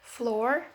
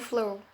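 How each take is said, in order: First: The final r is pronounced. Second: The final r is dropped. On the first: An upper-class speaker says it. "orang dari kelas atas juga cenderung lebih banyak menyebutkan pos vokal R" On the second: A lower-class speaker says it. "orang kelas bawah tidak menyebutkannya"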